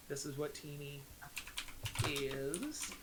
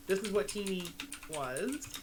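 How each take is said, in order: First: Much softer and lower, dropped almost to a murmur; quiet ominous contrast. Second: Said in the usual way. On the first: Shown as a demonstration. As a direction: let the word "is" sink low and quiet. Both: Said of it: "how it started versus how it's going".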